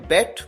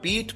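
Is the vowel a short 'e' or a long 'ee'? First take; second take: e; ee. First: The vowel is a short 'e' sound. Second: The vowel is a long 'ee' sound. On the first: The speaker calls it wrong. "कई बार students गलती करते हैं, वो pronounce करते हैं बेट" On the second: The speaker calls it right. "यहां पर बीट pronounce किया जाना है"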